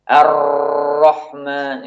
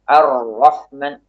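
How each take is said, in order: First: The R sound is held out long. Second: The R sound flows only briefly. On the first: The speaker calls it wrong. "Jangan sampai juga suara ra-nya memanjang. ... Ini juga tidak tepat" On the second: The speaker calls it right. "Ada suara yang mengalir ketika mengucapkan ra"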